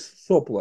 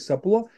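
First: The stress falls on the first syllable. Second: The stress falls on the second syllable. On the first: This is the form the rocket engineers used. The speaker calls it right. "они говорили сопло" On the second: This form sounds awkward when declined. The speaker calls it wrong. "они не говорили сопло"

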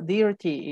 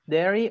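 First: It is said in a British accent. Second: It is said in an American accent.

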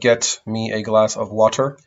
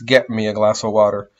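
First: The T at the end of 'get' is clearly released. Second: The T at the end of 'get' is cut off in the throat. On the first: The speaker calls it wrong. "Instead of" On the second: The speaker calls it right.

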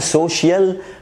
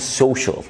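First: The last syllable sounds like 'shiel'. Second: The last syllable sounds like 'shal'. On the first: The speaker calls it wrong. "ما فيش حاجه اسمها social" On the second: The speaker calls it right. "في حاجه اسمها social"

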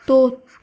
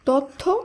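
First: The first vowel is a rounded 'o' sound. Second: The first vowel is an open 'a' sound. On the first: The speaker calls it right. "এর শুদ্ধ উচ্চারণ হবে তথ্য" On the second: The speaker calls it wrong. "এটা ভুল উচ্চারিত শব্দ"

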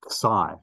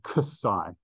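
First: The name begins without a k sound. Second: The name begins with a ks sound. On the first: The speaker calls it wrong. "the name of this letter is psi. No" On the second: The speaker calls it right. "No, it is ksi"

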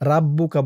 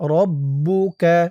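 First: The first vowel is an open a sound. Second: The first vowel is a rounded o-like sound. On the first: The speaker calls it wrong. "রাব্বুকা বলা যাবে না" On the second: The speaker calls it right. "বলতে হবে রব্বুকা"

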